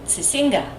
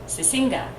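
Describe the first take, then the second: Both takes have the same delivery.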